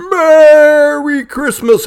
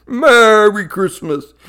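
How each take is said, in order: First: Slow, loud, high Santa greeting. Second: Slow, loud Santa greeting. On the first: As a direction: stretch it out like Santa. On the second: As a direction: draw it out like Santa. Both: Acted.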